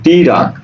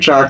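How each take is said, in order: First: A short i vowel splits the t and r. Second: The t and r form one tight cluster. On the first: This is a regional pronunciation. "রাজশাহীর মানুষ ট্রাককে ট্রাক না বলে বলে কি টিরাক" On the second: This is the standard pronunciation. "তুমি বলছো কি ট্রাক"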